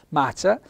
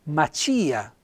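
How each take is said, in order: First: The stress falls on the A. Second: The stress falls on the I. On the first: The speaker calls it wrong. "non l'accento sulla A" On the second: The speaker calls it right. "ma l'accento sulla I"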